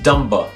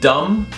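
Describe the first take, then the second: First: The word ends with an extra vowel sound. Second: The word ends on the m sound. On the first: This is the older pronunciation. "used to be pronounced dumba" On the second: This is the modern pronunciation. "words like dumb"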